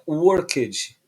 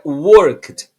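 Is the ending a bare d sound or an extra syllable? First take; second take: extra syllable; bare d. First: The ending is sounded as an extra syllable. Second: The ending is sounded as a bare d. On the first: The speaker calls it wrong. "Não é worked" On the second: The speaker calls it right. "como se o e não tivesse, apenas com o som do d"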